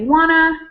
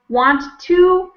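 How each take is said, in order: First: The two words are squished into one reduced word. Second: The two words are said fully and separately. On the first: "people say wanna" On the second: "Instead of saying want to"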